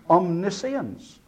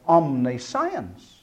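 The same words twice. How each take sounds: First: The ending is reduced, sounding like 'shence'. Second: The ending is said fully, like the word 'science'. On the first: The speaker calls it right. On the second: The speaker calls it wrong.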